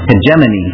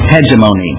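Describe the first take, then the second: First: The O vowel is short. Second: The O vowel is long.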